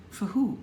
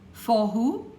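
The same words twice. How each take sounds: First: For a weak fuh, who stressed; reduced for. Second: For said fully as four, rising; full for. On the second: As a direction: give For its full vowel. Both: Shown as a demonstration. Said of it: "for becomes f".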